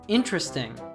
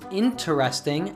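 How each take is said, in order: First: The word is said with three syllables. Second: The word is said with four syllables.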